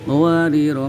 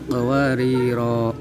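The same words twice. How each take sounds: First: The final ra vowel is cut short. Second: The final ra vowel is held long. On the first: The reader continues without stopping. "jika dibaca wasol maka rohnya dibaca pendek" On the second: The reader stops at this word. "jika dibaca waqaf maka rohnya dibaca panjang"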